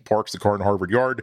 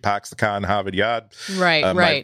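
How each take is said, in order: First: It is spoken in a Western Pennsylvania accent. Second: It is spoken in a Boston accent. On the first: "My father was born in Western Pennsylvania" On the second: "my mom was raised in the Boston area"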